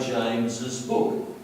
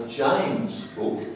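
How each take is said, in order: First: Said in the usual way. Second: "James'" clipped with no extra syllable; slow demo of the wrong "James' book"; mock wrong form. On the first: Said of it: "we do say James's book". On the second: Shown as a demonstration. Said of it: "We don't say James' book".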